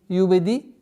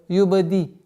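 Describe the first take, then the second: The two takes are said the same way.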